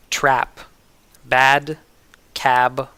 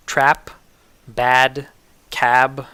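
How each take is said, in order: Both takes have the same delivery.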